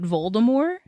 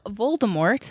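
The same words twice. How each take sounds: First: The final T sound is left silent. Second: The final T sound is pronounced. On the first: The speaker calls it wrong. "this poor dude is saying it Voldemort" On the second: The speaker calls it right. "there is an, a T at the end of his name"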